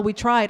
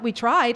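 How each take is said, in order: First: Said in the usual way. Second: Disbelieving question, tone rising; incredulous echo. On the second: Retold or imitated. Answering the lawyer after court, incredulous echo. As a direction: throw the words back in disbelief. Speaker rejects lawyer's resignation.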